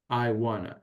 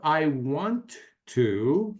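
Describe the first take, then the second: First: The words are blended into a reduced form. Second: Each word is said fully and separately. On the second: "instead of I want to"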